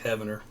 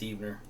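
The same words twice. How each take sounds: First: The name is pronounced the way it is spelled. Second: The name is pronounced differently from its spelling. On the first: The speaker calls it wrong. "Even though it spells, sounds, looks like Heavener" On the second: The speaker calls it right. "it's Heavener"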